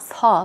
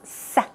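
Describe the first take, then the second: First: The s sound at the start is weak. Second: The s sound at the start is strong. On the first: The speaker calls it wrong. "it's not sa" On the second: The speaker calls it right. "It's a strong s, s sound"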